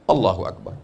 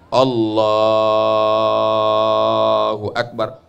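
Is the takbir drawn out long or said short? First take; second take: short; long. First: The takbir is said short and quick. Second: The takbir is drawn out long.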